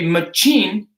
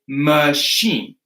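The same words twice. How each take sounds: First: The middle consonant is not a sh sound. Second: The middle consonant is a soft sh sound. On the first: The speaker calls it wrong. "You won't say machine" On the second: The speaker calls it right. "you will say a machine"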